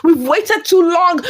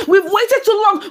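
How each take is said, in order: First: Drawn out slowly, each word weighed; slow emphatic. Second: Said in the usual way. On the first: Shown as a demonstration. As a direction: spell out the frustration slowly.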